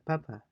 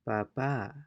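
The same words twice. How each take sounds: First: The stress is on the first syllable. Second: The stress is on the last syllable. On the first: "The other one is" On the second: "notice the stress at the end for the letter A"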